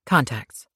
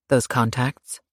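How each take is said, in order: First: Said in the usual way. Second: "Those contacts?" rising on "contacts" as a question; curious question. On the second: Acted. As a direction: ask "Those contacts?" with a lifted end. Bodyguard asks about eyes.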